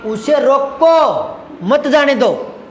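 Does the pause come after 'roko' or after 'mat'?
after roko. The pause comes right after 'roko'.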